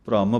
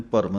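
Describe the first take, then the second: First: ਭ੍ਰਮ with the r joined to the first consonant, no vowel between; correct bhram. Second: ਭਰਮ with a vowel split between bh and r, bharam; the mistaken two-syllable ਭਰਮ; wrong reading bharam. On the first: Teacher models the correct bhram for learners. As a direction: say ਭ੍ਰਮ as one cluster, bhram. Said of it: "ਭ੍ਰਮ ਪਾਠ ਹੈ". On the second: Teacher shows learners the wrong split bharam. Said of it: "ਇਹਨੂੰ ਭਰਮ ਨਹੀਂ ਕਹਿ ਦੇਣਾ". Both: Shown as a demonstration.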